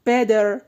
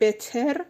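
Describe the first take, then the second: First: The middle consonant sounds like a soft d. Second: The middle consonant is a clear t sound. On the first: The speaker calls it right. "باید بگین better" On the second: The speaker calls it wrong. "به جای که بگیم better"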